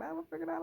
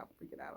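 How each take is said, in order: First: Much higher silly panicky voice; squeaky mock panic. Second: Playful deep growly freakout, much lower; silly deep voice. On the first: Cutting her locks, she squeals her freakout much higher. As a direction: jump way higher into a playful squeal. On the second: Pretend. Cutting her locks, she jokes in a very low voice. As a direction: drop the voice very low and soft for a mock panic.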